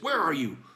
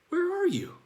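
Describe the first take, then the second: First: It is asked in a menacing, threatening tone. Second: It is asked in a puzzled, searching tone. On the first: The asker intends to come and catch the hider. "Like, I'm going to go ahead and come get you" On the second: The asker truly does not know the location. "Like, I don't know where you are"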